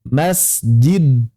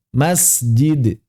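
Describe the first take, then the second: First: The final consonant is held closed, not released. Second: The final consonant is released with a slight bounce. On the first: It feels heavy to pronounce. The speaker calls it wrong. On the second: It feels light to pronounce. The speaker calls it right.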